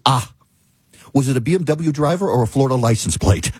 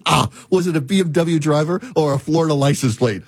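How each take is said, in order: First: Said in the usual way. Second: Lightly voiced Australian AI voice; slight Australian accent imitation; mock Australian accent. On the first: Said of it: "Literally says". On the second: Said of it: "this male Australian accent".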